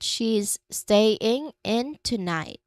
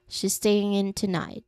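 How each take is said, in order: First: Each word is said slowly and separately. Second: The words run together with no gaps. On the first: "Say it slowly, word by word" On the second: "So the whole sentence flows like"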